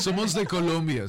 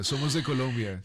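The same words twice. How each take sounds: First: Laughing. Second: Said in the usual way. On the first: Real, not acted. Laughing answer to accent guess.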